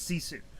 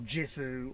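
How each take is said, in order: First: The name begins with an s sound. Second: The name begins with a j sound. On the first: The speaker calls it right. "It's Sisu" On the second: The speaker calls it wrong. "or Jifu"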